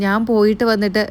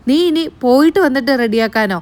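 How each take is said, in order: First: Said in the usual way. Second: Incredulous echo. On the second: Retold or imitated. Grandmother echoing the granddaughter's excuse, incredulous. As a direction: throw her words back in disbelief.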